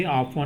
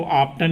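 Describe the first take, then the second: First: ऑफन said with the t silent, as the right way; ऑफन, drop the t completely; correct pronunciation. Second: ऑफ्टन said with the t sounded, as the wrong way; ऑफ्टन with a clear t before the n; wrong pronunciation. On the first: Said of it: "ऑफ्टन नहीं बोलेंगे, ऑफन बोलेंगे". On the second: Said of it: "ऑफ्टन नहीं बोलेंगे". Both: Shown as a demonstration.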